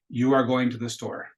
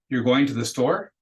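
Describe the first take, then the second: First: The pitch stays level or falls at the end. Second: The pitch rises at the end. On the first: It is a statement. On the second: It is a question.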